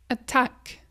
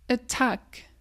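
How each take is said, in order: Both takes have the same delivery.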